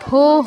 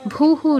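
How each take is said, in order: First: It is said with an o vowel, bhoh. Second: It is said with u vowels, bhuhu. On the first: The speaker calls it right. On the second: The speaker calls it wrong. "ভুহু নয়"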